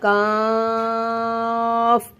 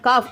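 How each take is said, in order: First: The vowel is stretched out very long. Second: The vowel is short, not stretched. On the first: The speaker calls it right. "அஞ்சு அலிஃபுக்கு நீட்டணும்" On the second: The speaker calls it wrong. "காஃபை காஃப் அப்படின்னு சொல்லாம"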